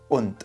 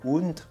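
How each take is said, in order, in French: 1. Le mot commence par une attaque dure de la gorge. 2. Le mot commence doucement, à la française. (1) "il y a un peu plus d'attaque dans euh, le commencement du mot" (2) "c'est pas und, comme on aurait tendance à dire en français"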